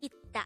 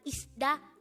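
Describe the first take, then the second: First: The first syllable ends with a t sound. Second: The first syllable ends with an s sound. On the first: The speaker calls it right. "but it is itta" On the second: The speaker calls it wrong. "this is not isda"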